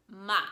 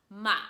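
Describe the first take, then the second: The two takes are said the same way.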